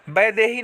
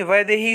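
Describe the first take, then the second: First: वैदेही as "bai-dehi"; wrong b sound. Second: वैदेही as "vai-dehi"; correct v sound. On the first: Teacher showing students the mistake, b substituted. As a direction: start वैदेही with b. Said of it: "नहीं". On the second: Teacher giving students the right form, clear v. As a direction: start वैदेही with v. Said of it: "होता है". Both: Shown as a demonstration.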